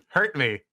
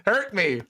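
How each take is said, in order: First: Said in the usual way. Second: Mock eager. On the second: Real, not acted.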